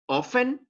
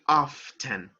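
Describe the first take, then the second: First: The T sound is silent. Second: The T sound is pronounced.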